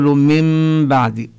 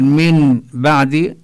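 First: من بعد slowly as "mim baad" with hidden nasal mim; nun turned to mim. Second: من بعد slowly with a clear nun before ba; nun sounded. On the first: Teacher demonstrating iqlab, nun becomes nasal mim. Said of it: "نقول". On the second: Teacher showing the reading to avoid, clear nun. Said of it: "فبدل أن نقول". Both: Shown as a demonstration.

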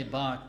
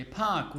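First: "bark" with a voiced b at the start; b instead of p. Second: "park" starting on a clear p. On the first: Friend correcting a newcomer's English, b for p. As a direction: open "bark" on b, as the mistake. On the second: Acted. Friend teaching a newcomer English, park with P. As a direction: open "park" on p, not b. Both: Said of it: "Say park with P".

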